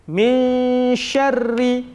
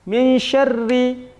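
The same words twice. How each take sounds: First: The nasal sound is held for two beats. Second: The nasal sound is passed over without holding. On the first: The speaker calls it right. "dia juga harus diberhentikan dua harakat" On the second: The speaker calls it wrong. "Tidak boleh langsung dibaca"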